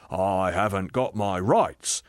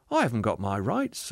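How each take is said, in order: First: Slow, insistent complaint; aggrieved ghost. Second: Light, easy admission; reassuring spirit. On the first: Ghost demanding his rights, slow and indignant. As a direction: drag out the grievance. Ghost's take of the same words. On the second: Spirit admitting it to the ghost, untroubled. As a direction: admit it freely and gently. Spirit's take of the same words. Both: Acted.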